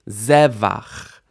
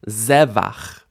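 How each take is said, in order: Both takes have the same delivery.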